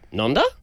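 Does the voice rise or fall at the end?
rise. The voice rises at the end.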